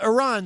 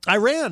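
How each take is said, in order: First: The first syllable does not sound like 'eye'. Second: The first syllable sounds like 'eye', like 'I ran'. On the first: "sounds more like, you know, the right way to say it" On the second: "is a uh, Flock of Seagulls song"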